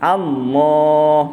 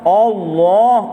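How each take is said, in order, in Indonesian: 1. Vokal pembukanya tipis; hanya la yang tebal. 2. Vokal pembukanya sudah tebal. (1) "A nipis, A. ... Pada lam tu baru te, tebal" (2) "Jangan mula-mula dah tebal. ... Salah"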